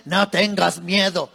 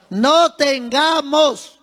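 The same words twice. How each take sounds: First: Said in the usual way. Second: No tengamos, lento y marcado; énfasis en tengamos. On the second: Shown as a demonstration. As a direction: recalca tengamos con calma. (No tengamos, muy pausado y firme) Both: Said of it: "Eso es otra cosa".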